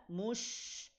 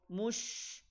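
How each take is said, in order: The two takes are said the same way.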